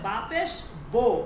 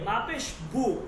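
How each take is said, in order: First: The final vowel sounds like 'oh'. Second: The final vowel sounds like 'oo'. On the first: This is how it is read in Persian. "কিন্তু ফার্সিতে হচ্ছে বাপেশ বো" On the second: This is how it is read in Arabic. "আরবিতে আমরা কি বলি? বাপেশ বু"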